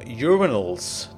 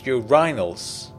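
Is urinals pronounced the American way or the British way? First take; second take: American; British. First: The word is pronounced the American way. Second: The word is pronounced the British way. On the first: The speaker calls it wrong. "You Americans call them urinals" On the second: The speaker calls it right. "You're saying it wrong. It's urinals"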